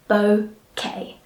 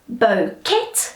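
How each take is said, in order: First: The final T is left silent. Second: The final T is sounded aloud. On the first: The speaker calls it right. "We just say bouquet" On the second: The speaker calls it wrong. "it's often mispronounced as bouquet"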